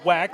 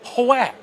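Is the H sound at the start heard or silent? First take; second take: silent; heard. First: The word starts with a plain W sound. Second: The word starts with a breathy H before W.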